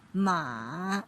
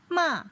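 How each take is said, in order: First: The pitch dips low then rises again. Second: The pitch falls sharply from high to low. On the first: "the third tone with the contour of the check shape" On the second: "fourth tone is falling from the highest point"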